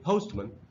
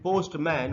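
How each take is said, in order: First: The second syllable has a reduced schwa vowel. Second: The second syllable has a full vowel. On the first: The speaker calls it right. "हमको इसको पढ़ना चाहिए पोस्टमैन" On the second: The speaker calls it wrong. "वो गलत उच्चारण है"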